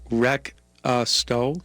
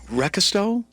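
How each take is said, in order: First: It is said slowly, with hesitant pauses. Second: It is said quickly, run together.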